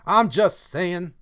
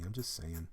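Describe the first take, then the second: First: Higher, louder, slow insistence; emphatic repeat. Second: Said in the usual way. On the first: Acted. Streamer repeats his point to chat, loud and slow.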